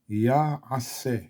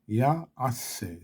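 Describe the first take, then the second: The two takes are said the same way.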